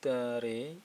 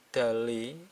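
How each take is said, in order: First: The middle consonant is a light R sound. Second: The middle consonant is a clear L sound. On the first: The speaker calls it right. "Re bukan Dale" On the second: The speaker calls it wrong. "bukan Dale"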